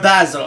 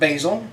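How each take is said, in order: First: The word is said the British way. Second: The word is said the American way.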